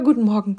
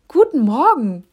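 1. Der Gruß klingt schlicht und natürlich. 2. Der Gruß klingt übertrieben und aufgezwungen. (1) "sag's ganz normal" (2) "so ein richtig aufgezwungenes Guten Morgen"

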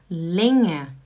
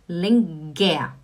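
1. É pronunciada do jeito que falantes de alemão dizem. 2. É pronunciada do jeito que um português leria. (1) "A gente não fala lenguer, a gente fala, atenção, lenha" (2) "Vamos falar igual um português, né? Seria lenguer"

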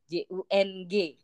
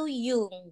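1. Nama itu diawali dengan bunyi J. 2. Nama itu diawali dengan bunyi Y. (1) "Jadi tulisan namanya tuh Jung" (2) "Cuman bacanya itu Jung gitu. J-nya dibaca Yung"

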